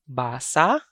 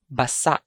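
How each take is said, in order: First: Basa with long BAA, rising end; stress on first syllable. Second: Basa with short BA, stressed SA; stress on second syllable. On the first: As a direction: stretch the first vowel of Basa. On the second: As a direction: clip basa, weight on the last syllable. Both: Shown as a demonstration. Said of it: "I'm going to read".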